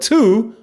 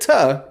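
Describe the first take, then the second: First: The vowel is a full 'oo' sound. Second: The vowel is reduced to a short 'uh'. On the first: The speaker calls it right. "the word two" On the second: The speaker calls it wrong. "mispronounced the word two, ... and said tuh instead"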